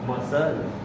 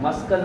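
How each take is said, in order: First: No k sound is heard after the s. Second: A k sound is heard after the s. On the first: The speaker calls it right. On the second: The speaker calls it wrong. "मस्कल नाही"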